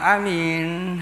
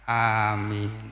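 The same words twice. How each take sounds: First: Only the second vowel is long. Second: Both the first and second vowels are long. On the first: It names a person who can be trusted. The speaker calls it wrong. "hamzahnya pendek, mimnya panjang" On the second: It is a plea to grant the prayer. The speaker calls it right. "Hamzahnya panjang, mimnya panjang"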